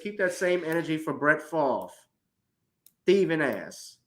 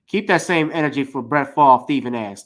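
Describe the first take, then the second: First: It is said slowly, in separate pieces. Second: It is said quickly, all run together.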